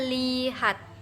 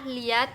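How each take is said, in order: First: Every sound in the word is kept. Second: One sound is dropped from the word. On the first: The speaker calls it right. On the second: The speaker calls it wrong. "penghilangan bunyi huruf. Contoh katanya yang salah"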